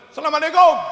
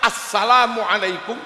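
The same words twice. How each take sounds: First: It begins with a plain 'salam', no article. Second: It begins with 'as-salam', the article included. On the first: The speaker calls it wrong. "Umume tamu mboten ngoten" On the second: The speaker calls it right.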